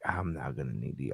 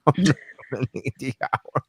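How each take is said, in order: First: Chuckling through the line; laughing. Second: Lightly voiced cocky client; mock confident client. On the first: Retold or imitated. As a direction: laugh while you say it. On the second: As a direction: say it like a smug customer. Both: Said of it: "And they're like".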